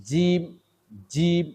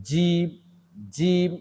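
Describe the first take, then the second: The two takes are said the same way.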